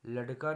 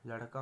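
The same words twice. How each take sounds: First: लड़का with hard, unflapped ड; wrong pronunciation. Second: लड़का with flapped ड़; correct pronunciation. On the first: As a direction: say लड़का as "ladka", firm d stop. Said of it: "नहीं होगा". (लड़का में बिना बिंदी का ड बोलें) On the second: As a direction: say लड़का as "larka", tongue flapped. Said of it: "होगा". (लड़का में ड़ बोलें) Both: Shown as a demonstration.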